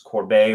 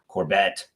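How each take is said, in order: First: The name is said with French pronunciation. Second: The name is said with English pronunciation. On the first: "that's the French pronunciation" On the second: "could be"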